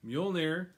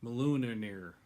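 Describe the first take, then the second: First: "Mjolnir" as two syllables, "MYUL-neer"; corrected pronunciation. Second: "Mjolnir" garbled as "ma-LOON-a-neer"; botched pronunciation. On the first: Host gets the hammer's name, "Mjolnir" said as "MYUL-neer". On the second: Host guesses at Thor's hammer, "Mjolnir" botched as "ma-LOON-a-neer". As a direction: stretch "Mjolnir" with extra syllables, ma-loo-na-neer. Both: Real, not acted. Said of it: "do you know how to say that?".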